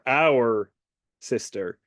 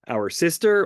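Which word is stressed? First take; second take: our; sister. First: The stress falls on the word our. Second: The stress falls on the word sister. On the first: The focus is on the siblings themselves. "in that second reading it is something, you know, less less about Dina and more about them" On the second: The focus is on the sister herself. "depends on what where you put the emphasis"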